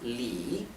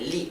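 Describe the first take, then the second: First: The name is said with a falling-rising tone. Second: The name is said plainly without a dipping tone. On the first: The speaker calls it right. "era Li" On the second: The speaker calls it wrong. "no era simplemente Lee"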